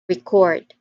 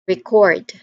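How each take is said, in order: First: The stress is on the second syllable. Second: The same.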